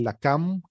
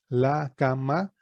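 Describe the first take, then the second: First: La cam said joined as a single word, lam; read as one word. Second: La, ka, ma as three separate syllables with pauses. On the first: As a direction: run la cam together smoothly as one word. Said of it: "se lee la cam". (leído como una sola palabra, la cam) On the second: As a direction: spell out la, ka, ma one syllable at a time. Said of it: "se translitera la, ka, ma". (sílaba por sílaba, la, ka, ma separadas) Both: Shown as a demonstration.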